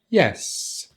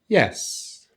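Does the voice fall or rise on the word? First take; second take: fall; fall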